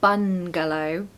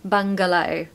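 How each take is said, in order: First: The first syllable ends in a plain n sound. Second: The first syllable ends in a back ng sound. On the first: The speaker calls it wrong. "you're not going to say bungalow, bun" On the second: The speaker calls it right. "it's in the back of the throat, this ng sound"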